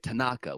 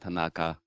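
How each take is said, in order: First: One syllable gets extra stress. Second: All syllables get equal, even stress. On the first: The speaker calls it wrong. "We want to sort of put a, a little oomph on one of the syllables" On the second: The speaker calls it right. "It just goes straight. Each syllable gets this same treatment"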